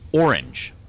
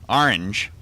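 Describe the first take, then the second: First: The first syllable sounds like 'or'. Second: The first syllable sounds like 'ar'. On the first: "R, which sounds like or. So it's orange" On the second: "do A R E N G E. Orange"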